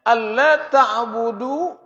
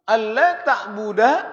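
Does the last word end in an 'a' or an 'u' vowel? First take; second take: u; a. First: The last word ends in an u vowel. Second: The last word ends in an a vowel. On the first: The speaker calls it wrong. "enggak boleh dibaca ta'budu" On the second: The speaker calls it right. "Akhirnya harus harus nasab"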